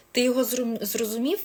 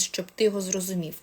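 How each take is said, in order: First: Higher, rising to ask did you get it; quick lightly acted check with the listener; checking question. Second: Said in the usual way. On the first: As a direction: ask it back with a rising tune. Acts asking the listener to confirm.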